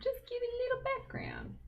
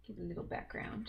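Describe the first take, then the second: First: "Just give it a little background" said much higher, with a falling end; high silly voice. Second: Said in the usual way. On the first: Shown as a demonstration. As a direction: jump way up in pitch for a playful repeat. Repeats phrase in high voice.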